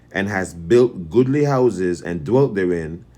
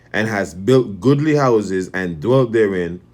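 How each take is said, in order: Both takes have the same delivery.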